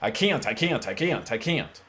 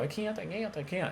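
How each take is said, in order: First: It is said in a forceful, fast voice. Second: It is said in a high, squeaky helium voice.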